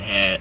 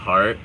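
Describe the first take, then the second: First: The r sound is dropped from the word. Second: The r sound is pronounced in the word. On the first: "He would say hat and hat" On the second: "like heart and heart"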